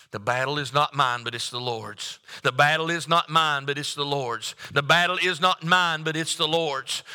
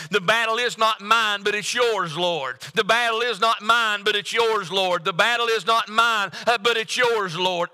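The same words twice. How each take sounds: First: Said in the usual way. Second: Higher, earnest prayer, repeated like a chant. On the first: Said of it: "And what he said was this". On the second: Shown as a demonstration. Preacher leads the congregation in prayer, higher and earnest. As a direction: pray it as a plea to the Lord. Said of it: "let's just turn that into a prayer".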